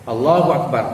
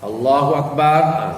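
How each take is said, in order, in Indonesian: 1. Vokal pada Allah ditahan selama dua ketukan. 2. Vokal setelah b pada Akbar dipanjangkan. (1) "maknanya dua harakat" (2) "salah dah. Ba tu tak ada alif lepasnya, tak ada panjang"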